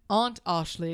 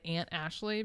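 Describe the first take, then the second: First: The vowel in 'aunt' is broad, like 'father'. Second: The vowel in 'aunt' matches the 'a' in Ashley. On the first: "That sounds posh" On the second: "because it's the same A sound"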